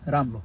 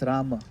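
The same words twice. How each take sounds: First: "Ram" with no a after the m; half ma. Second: "Rama" with a short a after the m; full ma. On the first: Teacher explaining the half ma, vowel cut off. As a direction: close "Ram" on the m. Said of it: "There's no a after ma". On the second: Teacher correcting the half ma, final vowel sounded. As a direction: sound the second syllable of "Rama". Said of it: "It's Rama". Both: Shown as a demonstration.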